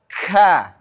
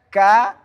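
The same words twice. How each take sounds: First: The syllable is strongly exaggerated. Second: The syllable is said plainly and moderately. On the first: The speaker calls it wrong. "tidak boleh terlalu ka" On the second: The speaker calls it right. "yang biasa-biasa aja"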